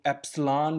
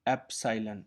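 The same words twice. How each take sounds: First: एप्सिलॉन said as two syllables, "eps-LAAN"; variant pronunciation. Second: Said in the usual way. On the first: Shown as a demonstration. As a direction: say एप्सिलॉन as "epslaan", with no "sai" in the middle. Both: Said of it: "pronunciation का फ़र्क है".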